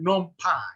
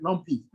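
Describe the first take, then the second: First: NumPy with the ending said "pie". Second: NumPy with the ending said "pee". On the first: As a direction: say NumPy with a long "eye" at the end. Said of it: "we call it NumPy". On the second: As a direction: say NumPy to rhyme with "bumpy". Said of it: "people call it NumPy". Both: Shown as a demonstration.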